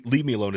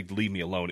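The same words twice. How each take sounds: First: A half-hearted irritated brush-off; mock snapped leave me alone. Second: Said in the usual way. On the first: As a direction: Leave punched a bit louder and higher. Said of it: "It was more m-, me". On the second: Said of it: "And I didn't say".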